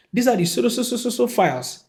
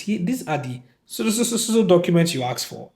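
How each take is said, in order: First: Higher, stammering so, so, so before files; higher mock generic line. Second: Stammering over the blank word; mock generic line. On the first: Mocking the secretary's generic reply, pitched higher. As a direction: squeak out the vague line, tripping on so. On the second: Secretary parroting a generic line, stammering. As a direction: mimic a vague secretary, tripping on so. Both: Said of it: "Let's hear the specific documents".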